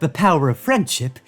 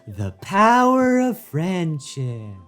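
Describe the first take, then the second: First: It is said in a flat, plain tone. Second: It is said in a bubbly, sparkling tone. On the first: The speaker calls it wrong. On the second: The speaker calls it right.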